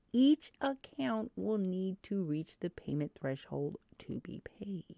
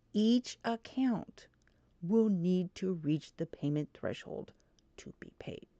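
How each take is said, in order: The two takes are said the same way.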